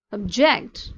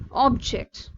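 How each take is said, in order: First: JECT in "Object" stressed and louder; "Object" as a verb, punched on JECT; last-syllable stress. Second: OB in "object" stressed, then dropping; "object" as a noun, punched on OB; first-syllable stress. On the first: Teacher demonstrating verbs, "Object" stressed on JECT. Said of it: "the stress on last syllable". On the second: Teacher demonstrating nouns, "object" stressed on OB. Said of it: "stress on first syllable noun". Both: Shown as a demonstration.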